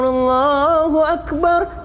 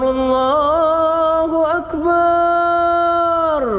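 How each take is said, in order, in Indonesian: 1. Suku kata terakhir bar dibaca pendek dan langsung. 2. Suku kata terakhir bar dibaca panjang. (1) "harusnya dia langsung Allahu Akbar" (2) "bar, banyak dipanjangin"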